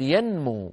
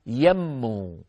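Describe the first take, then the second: First: ينمو as yan-moo, N fully sounded; clear unmerged noon. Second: يمو as yam-moo, long doubled M, drawn out; wrongly merged noon. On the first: Teacher models the verb correctly, distinct N in ينمو. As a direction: keep N apart from M in ينمو. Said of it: "ولا نقول يمو". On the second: Teacher shows the wrong verb form, يمو with long M. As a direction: lose the N and hold the M in يمو. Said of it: "ولا نقول". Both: Shown as a demonstration.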